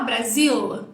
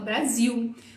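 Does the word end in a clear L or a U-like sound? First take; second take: clear L; U sound. First: The word ends with a clear L sound. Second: The word ends with a U-like vowel sound. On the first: "Tem um som de L, mas a gente não fala Brasil" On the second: "a gente fala Brasil"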